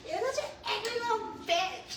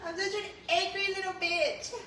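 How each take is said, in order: First: Much higher, squeaky mimicry; mock squeaky voice. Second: Higher, sarcastic self-mockery; mock the comment back in a high voice. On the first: Imitating the viewer's jab in a much higher squeaky voice. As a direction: squeak the insult like a cartoon. Mocking a chat comment. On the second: Repeating a viewer's jab back, high and mocking.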